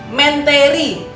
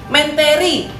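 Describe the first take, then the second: No difference in how they are said.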